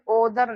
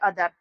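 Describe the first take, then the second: First: The first vowel is a rounded 'o' sound. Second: The first vowel is an open 'a' sound. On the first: The speaker calls it wrong. "ओदर नहीं पढ़ते" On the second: The speaker calls it right. "यहाँ पर क्या पढ़ते हैं अदर"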